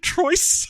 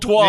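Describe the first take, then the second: First: It is said like 'Troy's', ending in 'z'. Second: It is said the French way, ending in 'ah'. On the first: This is how confused customers asked for it. The speaker calls it wrong. "people kept asking for tickets to Troy's" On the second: This is the film's actual title. The speaker calls it right. "it was called Trois"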